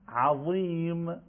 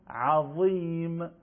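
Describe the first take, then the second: Both takes have the same delivery.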